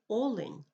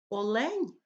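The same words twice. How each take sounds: First: The stress follows the Ukrainian stress pattern. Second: The stress follows the Russian stress pattern. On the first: "а в українській мові" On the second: "В російській мові кажуть"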